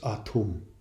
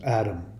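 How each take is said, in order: First: The middle consonant sounds like a T. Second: The middle consonant sounds like a D. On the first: The speaker calls it right. "It's Atum" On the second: The speaker calls it wrong. "Some people pronounce it Adam"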